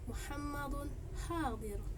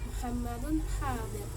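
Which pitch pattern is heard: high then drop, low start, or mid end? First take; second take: high then drop; low start. First: Pitch goes high before the end, then drops. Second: The start is said on a low pitch. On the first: "nada tinggi ini berada sebelum akhir kalimat, dan setelahnya itu diikuti dengan nada rendah" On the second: "nada rendah. Nada rendah ini berada pada awal kalimat"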